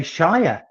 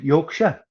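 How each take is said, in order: First: Shire said in full, with a long i; full "shire" ending. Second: Yorkshire with a reduced "-sher" ending; Yorkshire ending in a short, unstressed "shuh"; local Yorkshire pronunciation. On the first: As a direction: say Shire to rhyme with fire. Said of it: "most Canadians would say Shire". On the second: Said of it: "but you're very good. You've said Yorkshire". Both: Shown as a demonstration.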